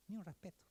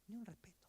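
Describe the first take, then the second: No difference in how they are said.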